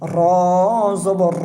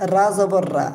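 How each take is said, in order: First: The vowel is a rounded o sound. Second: The vowel is an open a sound. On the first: The speaker calls it right. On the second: The speaker calls it wrong.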